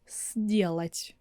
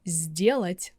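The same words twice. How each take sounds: First: The word begins with a voiceless s sound. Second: The word begins with a voiced z sound. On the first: The speaker calls it wrong. "I'm sure you're not saying сделать. It's impossible to say that" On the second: The speaker calls it right. "like z is the first letter"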